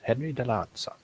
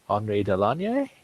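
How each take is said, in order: First: The name is said with a Japanese accent. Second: The name is said with a French accent. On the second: "the French pronunciation, and probably the correct one"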